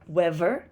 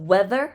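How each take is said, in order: First: The middle sound is a v. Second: The middle sound is a th.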